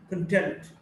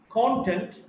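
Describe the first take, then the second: First: "content" as con-TENT; weak start, strong TENT in "content"; stress on second syllable. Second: "content" as CON-tent; stress on first syllable. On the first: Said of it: "stressed in the second syllable". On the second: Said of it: "stressed in the first syllable". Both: Shown as a demonstration.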